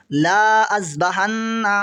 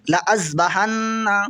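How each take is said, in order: First: ला held long before अज़बहन्ना; alif wrongly sounded. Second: ला cut to a short "la" before अज़बहन्ना; silent alif. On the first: Teacher shows the crossed alif misread, long "laa". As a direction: stretch "laa", then break into अज़बहन्ना. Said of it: "ये अलिफ नहीं पढ़ा जाएगा". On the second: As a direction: run a brief "la" straight into अज़बहन्ना. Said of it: "इस तरह पढ़ा जाएगा". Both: Shown as a demonstration.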